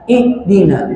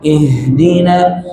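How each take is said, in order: First: "ihdina" with h replaced by an abrupt glottal stop; pressed stop. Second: "Ihdina" slowly, with breath flowing through the h. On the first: Teacher warning against pressing, hard stop. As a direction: cut the air short after i in "ihdina". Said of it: "Jangan ditekan". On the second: Teacher modelling the big ha, flowing breath. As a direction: let an airy h run on in "Ihdina". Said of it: "Alirkan nafasnya". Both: Shown as a demonstration.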